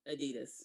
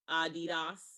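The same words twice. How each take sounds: First: The word is said the English way. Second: The word is said the German way. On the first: The speaker calls it wrong. "It's not Adidas" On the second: The speaker calls it right. "is a German company, so it is Adidas"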